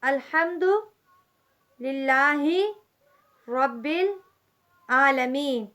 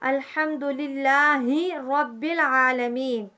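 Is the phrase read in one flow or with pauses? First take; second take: with pauses; one flow. First: It is read with pauses between the words. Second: It is read in one flow without pauses. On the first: The speaker calls it wrong. "इसको इतना ठहर ठहर कर मत पढ़ें" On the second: The speaker calls it right. "इसको एक ही दफ़ा पढ़ें"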